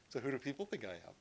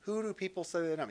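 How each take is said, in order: First: Quick, softer, fishing for approval; a hint of insecure asking, rushed and hushed; needy mock Jesus. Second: Said in the usual way. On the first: Pastor mocks an approval-seeking Jesus, quick and hushed. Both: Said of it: "He's not going like".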